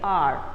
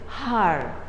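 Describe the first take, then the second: First: The word begins with a vowel sound. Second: The word begins with an H sound. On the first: The speaker calls it right. "H is a silent, and so here when we speak out the word, we say R" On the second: The speaker calls it wrong. "You don't say har"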